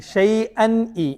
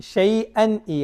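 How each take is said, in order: No difference in how they are said.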